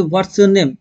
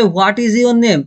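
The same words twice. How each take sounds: First: Said in the usual way. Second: Very slow, each word spelled out: "What is your name?"; slow full form. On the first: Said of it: "আর কেউ যদি বলে". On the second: Shown as a demonstration. Teacher showing students a full English sentence, slow and careful. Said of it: "কেউ যদি বলে".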